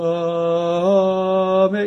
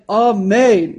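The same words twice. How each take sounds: First: The word is drawn out too long. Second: The word is held for a moderate length. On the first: The speaker calls it wrong. "as opposed to amen" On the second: The speaker calls it right. "some happy medium. It's like amen"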